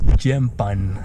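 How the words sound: It is said in a Filipino accent.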